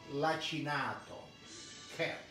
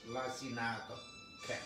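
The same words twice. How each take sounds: First: Lacinato is pronounced with Italian sounds. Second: Lacinato is pronounced with English sounds. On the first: "In Italia we call lacinato kale" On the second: "In English I read it like this"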